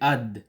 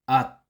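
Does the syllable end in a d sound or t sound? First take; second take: d; t. First: The syllable ends with a d sound. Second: The syllable ends with a t sound. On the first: The speaker calls it wrong. "hindi ad" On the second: The speaker calls it right. "ang sound nila ay sound T"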